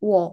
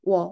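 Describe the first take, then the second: First: The vowels merge into one quick glide, wo. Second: The vowels merge into one quick glide, wo.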